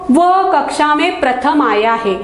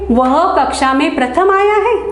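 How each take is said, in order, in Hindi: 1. यह सादे कथन की तरह बोला जाता है, स्वर गिरता है। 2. यह प्रश्न की तरह बोला जाता है, स्वर उठता है। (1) "सरल वाक्य लिखा है और आगे फुल स्टॉप दिया है" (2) "सवाल के रूप में"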